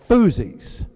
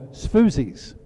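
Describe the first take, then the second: First: The name begins without any S sound. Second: The name begins with an audible S sound. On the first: "The S is silent" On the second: "pronouncing the S"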